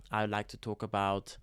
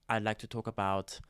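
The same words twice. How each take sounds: The two takes are said the same way.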